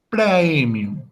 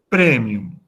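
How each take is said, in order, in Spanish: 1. La primera vocal es el diptongo completo 'ae'. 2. La primera vocal es un sonido 'e' simple. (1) "en la pronunciación clásica se pronuncia el diptongo completo, a e" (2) "en la pronunciación italiana o eclesiástica se pronuncia como e"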